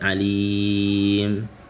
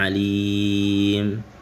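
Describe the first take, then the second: First: The long vowel is held for six beats. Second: The long vowel is held for six beats.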